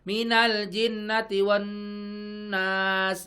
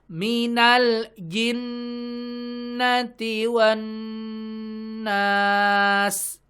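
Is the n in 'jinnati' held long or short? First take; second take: short; long. First: The n in jinnati is short, without nasal hold. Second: The n in jinnati is held long and nasal. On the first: The speaker calls it wrong. "Wan nasnya dapat gunahnya tapi jinnya nggak dapat ya" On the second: The speaker calls it right. "dua pastikan dua-duanya gunnahnya dapat"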